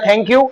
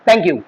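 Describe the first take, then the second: First: It is said with an Indian English accent. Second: It is said with an American English accent. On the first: "ये Indians बोलते हैं" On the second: "American कैसे बोलेंगे?"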